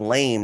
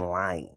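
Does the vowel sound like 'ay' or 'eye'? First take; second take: ay; eye. First: The vowel is an 'ay' sound. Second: The vowel is an 'eye' sound. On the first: This is the usual pronunciation. "instead of lame" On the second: This is how people in Atlanta say it. "they say lime"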